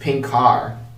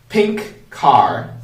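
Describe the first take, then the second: First: The two words are linked together. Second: The two words are said separately.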